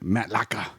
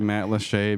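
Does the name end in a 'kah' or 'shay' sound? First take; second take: kah; shay. First: The name ends with a 'kah' sound. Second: The name ends with a 'shay' sound. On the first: "one time I I pronounced it Matt Laka" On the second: "you love to say Matt Lachey"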